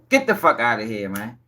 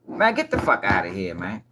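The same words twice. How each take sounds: First: Low, quieter repeat of the brush-off; scoffing dismissal. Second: Low, dropped, disbelieving brush-off; low scoff at a lie; scoffing dismissal. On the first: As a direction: shake your head at it. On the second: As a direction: wave it away in disbelief. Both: Real, not acted.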